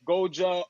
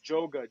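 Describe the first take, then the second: First: The name starts with a G sound. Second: The name starts with a J sound. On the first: The speaker calls it wrong. "a lot of people say my D J name wrong" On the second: The speaker calls it right. "Just think J O G A"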